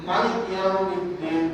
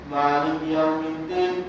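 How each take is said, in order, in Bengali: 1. 'Maliki'-এর প্রথম স্বরধ্বনিটি হ্রস্ব রাখা হয়। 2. 'Maliki'-এর প্রথম স্বরধ্বনিটি দীর্ঘ করে উচ্চারণ করা হয়।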